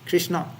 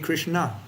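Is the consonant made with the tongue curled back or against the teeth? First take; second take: teeth; curled back. First: The consonant is made against the teeth. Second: The consonant is made with the tongue curled back. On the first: The speaker calls it wrong. "You don't say Krishna with his teeth like this. This is wrong" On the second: The speaker calls it right. "It should be Krishna. ... You should go a little upwards"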